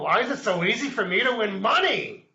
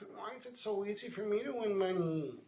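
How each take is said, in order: First: It sounds curious and pleasantly surprised. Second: It sounds doubtful and questioning. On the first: The speaker accepts the win and wonders why. "you're being curious about" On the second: The speaker doubts the win is real. "are you doubting that?"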